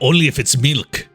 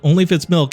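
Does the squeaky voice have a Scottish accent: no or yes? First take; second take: Yes; No. First: A squeaky cutesy voice with a Scottish accent. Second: A squeaky cutesy voice without a Scottish accent. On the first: "you mentioned that he's Scottish? Alright, we're doing this again" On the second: "I don't want to do the voice"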